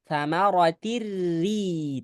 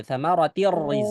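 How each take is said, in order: First: Samaratir ri said slower with a light, thin r; thin correct reading. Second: Samaratir rizqa rushed with a rising end on rizqa; wrong reading. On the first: Teacher gives the good reading to the congregation. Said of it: "Tipis ya jamaah". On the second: Teacher shows students how not to recite, wrong reading. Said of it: "yang nggak bagus bacanya begini". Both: Shown as a demonstration.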